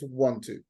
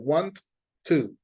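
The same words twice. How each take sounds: First: The two t sounds merge into one. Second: The two t sounds are said separately. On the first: The speaker calls it right. "they become one sound" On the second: The speaker calls it wrong. "So you don't go like want to. We do not separate them"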